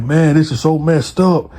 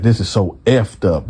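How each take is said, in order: First: Lightly acted upset holler, a little raised; half-hearted retold holler of an upset man; mild mock hollering. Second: Said in the usual way. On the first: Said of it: "steady just hollering and hooting". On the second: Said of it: "he didn't say messed up".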